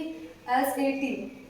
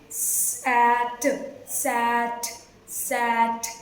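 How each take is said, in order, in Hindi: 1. हर अक्षर को उसके वर्णमाला के नाम से बोला जाता है। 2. हर अक्षर को उसकी ध्वनि से बोला जाता है। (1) "इंग्लिश में लेटर नेम अलग होते हैं" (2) "साउंड मतलब ध्वनियाँ, ध्वनि सीखते हैं"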